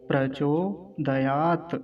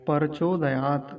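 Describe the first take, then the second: First: It begins with a tight 'pr' cluster. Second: A vowel is inserted between p and r. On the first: The speaker calls it right. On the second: The speaker calls it wrong.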